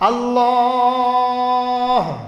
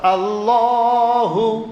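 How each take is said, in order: First: It stops on the last consonant, with no vowel. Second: It is said loudly, ending on a final vowel. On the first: "इस आखिरी हरफ पर अगर हम जज़म देंगे तो ठहरना" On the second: "ऊंची आवाज अल्लाहु"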